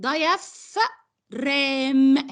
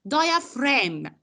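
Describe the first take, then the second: First: Diaphragm read as it is spelled, every letter sounded; spelling pronunciation. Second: Diaphragm said the right way, DIE-uh-fram with a silent g; correct pronunciation. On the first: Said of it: "هنكتبها كأنها كده". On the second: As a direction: model Diaphragm cleanly for the student, g silent. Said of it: "How I pronounce it". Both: Shown as a demonstration.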